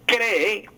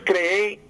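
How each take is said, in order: First: The stress is on the first syllable. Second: The stress is on the last syllable. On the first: The speaker calls it right. "sino cree con acento grave" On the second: The speaker calls it wrong. "No es cree"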